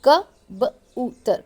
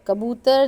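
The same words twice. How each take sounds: First: कबूतर slowly split into क, ब, ऊ, तर; sounded out. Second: Said in the usual way. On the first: Shown as a demonstration. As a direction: spell out कबूतर by its sounds, pausing between them. (कबूतर को आवाज़ों में तोड़कर धीरे) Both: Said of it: "एक एक, अ, जो हरूफ है उसके साथ बताया".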